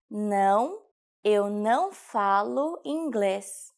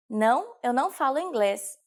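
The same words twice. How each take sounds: First: Slow, word-by-word model sentence; slow teaching repetition. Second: Said in the usual way. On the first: Shown as a demonstration. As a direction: stretch "Não, eu não falo inglês" out for learners. Teacher repeats sentence slowly. (slowed-down language-lesson delivery)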